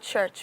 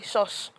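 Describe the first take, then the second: First: The word begins and ends with a 'ch' sound. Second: The word begins and ends with an 'sh' sound. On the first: This is the intended pronunciation. The speaker calls it right. "instead of saying church" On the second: The speaker's first language interferes. The speaker calls it wrong. "we'll say shush"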